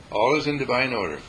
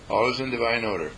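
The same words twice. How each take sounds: The two takes are said the same way.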